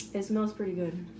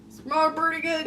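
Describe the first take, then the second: First: Said in the usual way. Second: Higher, playful put-on voice; silly voice. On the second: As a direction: say it goofily, pitched up. Repeats it in a silly voice.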